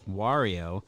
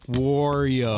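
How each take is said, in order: First: The first syllable sounds like 'Mar' in Mario. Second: The first syllable sounds like 'Maur' in Maury. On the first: The speaker calls it right. "like M for like Mario, the M replaced on Mario with a W" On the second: The speaker calls it wrong. "He says it like Maury Povich, but with a W"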